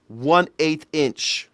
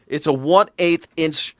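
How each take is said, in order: First: "one eighth inch" spelled out slowly, each word weighted; slow insistent "one eighth inch"; slow emphatic. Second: Said in the usual way. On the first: Shown as a demonstration. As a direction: drag out "one eighth inch" to drive it home.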